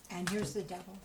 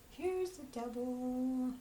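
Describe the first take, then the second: First: Said in the usual way. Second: Slow, drawn-out, higher "Here's the devil."; dramatic reveal. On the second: Shown as a demonstration. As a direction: stretch out "Here's the devil" slowly for effect.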